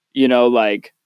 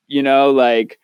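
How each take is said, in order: Both takes have the same delivery.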